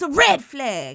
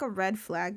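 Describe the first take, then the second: First: It is said forcefully, with strong urgency. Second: It is said in a light, casual, softened way. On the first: The danger is serious and needs action. The speaker calls it right. "I got to say it with urgency" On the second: The warning is softened to please listeners. The speaker calls it wrong. "You want me to be palatable for you?"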